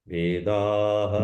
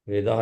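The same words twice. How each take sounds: First: The ending of the word is drawn out. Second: The ending of the word is short. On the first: The speaker calls it right. "और भी खींचो" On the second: The speaker calls it wrong. "वेदाह नहीं"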